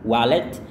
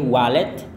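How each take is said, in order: No difference in how they are said.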